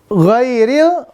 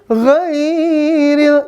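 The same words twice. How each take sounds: First: The first vowel is kept short. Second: The first vowel is drawn out long. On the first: The speaker calls it right. "gue ini nggak panjang ya" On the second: The speaker calls it wrong. "Ini sampai dibaca ghairil, jangan ya"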